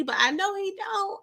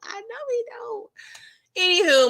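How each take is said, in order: First: Said in the usual way. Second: Slow, high, stretched-out singsong; drawn-out singsong. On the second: Shown as a demonstration. Mocking a TV character for lacking nerve, slow high singsong. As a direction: drag it out high and slow, teasing.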